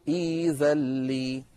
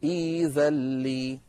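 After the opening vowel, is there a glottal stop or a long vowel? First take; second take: long vowel; long vowel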